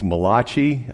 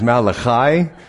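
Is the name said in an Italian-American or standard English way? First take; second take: Italian-American; standard English. First: The name is said like an Italian-American name. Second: The name is said in standard English form. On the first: The speaker calls it wrong. "a lot of people say it's Malachi. He's not the Italian prophet from Brooklyn" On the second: The speaker calls it right. "This is Malachi. So pronunciation is everything"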